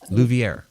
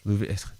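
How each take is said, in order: First: The R is said plainly, without a roll. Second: The R is said with an attempted roll. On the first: "I know I'm probably always saying that wrong" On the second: "Roll the R's"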